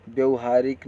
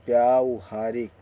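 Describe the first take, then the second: First: व्यवहारिक with a short "vya" at the start; short-a opening in व्यवहारिक; wrong short vowel. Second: व्यावहारिक with a long "vyaa" at the start; long-aa opening in व्यावहारिक; correct long vowel. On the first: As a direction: rush past the first vowel of व्यवहारिक. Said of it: "व्यवहारिक नहीं". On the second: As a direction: draw out the first aa in व्यावहारिक. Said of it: "ऐसे लिखा पढ़ा बोला जाएगा". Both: Shown as a demonstration.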